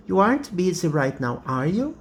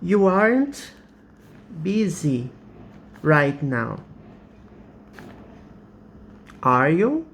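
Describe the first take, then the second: First: You aren't busy right now are you, run together fast, rising on you; quicker retake of the same tag question. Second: You aren't busy right now are you, slow with pauses, rising on you; teacher demo of a rising tag; slow rising question. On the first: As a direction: rattle it off, lift at the end. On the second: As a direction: ask it slowly, voice going up at the end. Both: Shown as a demonstration. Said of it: "So this is an, a real question".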